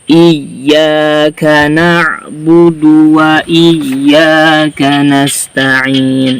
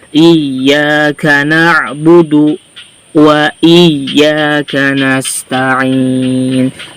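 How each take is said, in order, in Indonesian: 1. Frasa ini mengalir lancar tanpa jeda. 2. Frasa ini memiliki jeda yang memanjangkan bunyi vokal.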